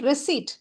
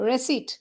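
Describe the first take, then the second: The two takes are said the same way.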